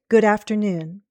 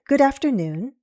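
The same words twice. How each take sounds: First: The pitch falls at the end. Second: The pitch falls and then rises. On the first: "More formal English uses falling intonation" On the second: "Or possibly a fall rise pattern"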